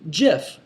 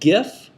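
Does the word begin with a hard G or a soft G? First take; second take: soft; hard. First: It begins with a soft G sound. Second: It begins with a hard G sound. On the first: "or is it a soft G like gentleman?" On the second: "is it a hard G like um, like gift"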